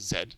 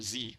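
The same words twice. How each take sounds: First: The letter is said the British way, zed. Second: The letter is said the American way, zee.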